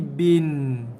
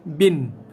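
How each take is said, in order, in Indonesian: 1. Bunyi n akhir membawa dengung sengau yang sedikit. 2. Bunyi n akhir berhenti tiba-tiba tanpa dengung. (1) "ada bunyi dengung sikit saja dekat ujung tu" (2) "terus full stop, terus tarik handbrake"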